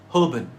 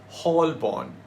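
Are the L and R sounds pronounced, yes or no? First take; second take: no; yes. First: The L and R are silent, second vowel reduced. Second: The L and R sounds are pronounced. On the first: The speaker calls it right. "The L and R are both silent, and you kind of eat up the second O" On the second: The speaker calls it wrong. "It's not Holborn. That would be too simple"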